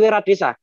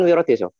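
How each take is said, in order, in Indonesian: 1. Vokalnya diucapkan sebagai bunyi a. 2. Vokalnya diucapkan sebagai bunyi o. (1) "Pemalang Barat mengatakan" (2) "orang Pemalang Timur itu mengatakan"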